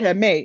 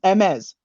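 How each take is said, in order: First: The final S is left silent. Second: The final S is clearly sounded. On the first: The speaker calls it wrong. "He pronounced it wrong. He said" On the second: The speaker calls it right. "the S is pronounced"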